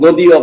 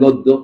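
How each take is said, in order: First: The d is followed by a y glide. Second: The d is held double without a glide. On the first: This is how the word is written. "লেখেন গদীয়" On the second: This is how the word is spoken. "বলেন গদ্য"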